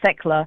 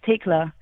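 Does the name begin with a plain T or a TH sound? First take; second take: TH sound; plain T. First: The name begins with a TH sound. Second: The name begins with a plain T sound. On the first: The speaker calls it wrong. "a lot of people think it's the TH gives a Tekla, which is incorrect" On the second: The speaker calls it right. "It's Tekla"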